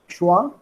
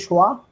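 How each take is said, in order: Both takes have the same delivery.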